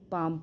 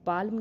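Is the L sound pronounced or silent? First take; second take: silent; pronounced. First: The L sound is silent before the M. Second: The L sound is pronounced before the M. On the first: The speaker calls it right. "केवल पाम पढ़ेंगे" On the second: The speaker calls it wrong. "पाल्म नहीं पढ़ेंगे"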